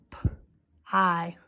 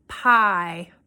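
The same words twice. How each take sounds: First: P-I as a whispered "p", pause, then a low "eye"; sounded out. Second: Said in the usual way. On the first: Shown as a demonstration. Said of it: "we're gonna tap out the sounds". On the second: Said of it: "I'm gonna say a word".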